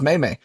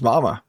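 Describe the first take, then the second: First: Both syllables have an 'ay' vowel, like may. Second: Both syllables have an 'ah' vowel, like mama. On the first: The speaker calls it right. "Nah, it's pronounced May May" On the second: The speaker calls it wrong. "you probably think that that's pronounced Mama"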